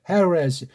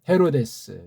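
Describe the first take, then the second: First: Western-style sounds, with a curled-tongue r. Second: Plain Korean sounds, with no curled tongue. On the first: The speaker calls it wrong. "서양 애들이 하는 거 보고 ... 왜 혀를 꼽으래요?" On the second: The speaker calls it right. "그냥 헤로데스"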